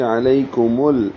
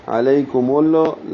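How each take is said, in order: First: Slow علیکم ال-, stopping steady on the l; still lam. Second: Slow علیکم ال-, final l bouncing into "lo"; wrong shaken lam. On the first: Teacher showing the correct stop, ال- ending on a still l. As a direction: hold the final l of ال- without a bounce. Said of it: "لام ہلے نہیں". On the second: Teacher showing the mistake, ال- released as "ul-lo". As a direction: let the l of ال- shake loose with an extra vowel. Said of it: "اس طرح نہ ہو". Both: Shown as a demonstration.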